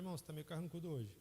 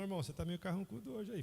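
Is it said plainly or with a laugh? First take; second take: plainly; with laugh. First: It is said plainly, without laughing. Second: It is said warmly, while laughing.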